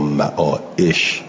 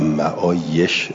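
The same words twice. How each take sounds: First: The middle consonant is a glottal stop. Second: The middle consonant is a y sound. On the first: The speaker calls it wrong. "صحیح نیست" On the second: The speaker calls it right. "صحیح"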